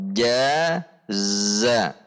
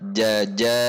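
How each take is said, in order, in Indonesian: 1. Suku kata pertama berbunyi j, suku kata kedua berbunyi z. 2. Kedua suku kata dimulai dengan bunyi j. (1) "Namun jaza" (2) "jangan sampai dibaca jaja"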